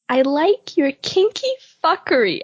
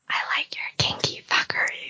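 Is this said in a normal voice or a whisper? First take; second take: normal; whisper. First: The words are spoken in a normal voice. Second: The words are spoken in a whisper.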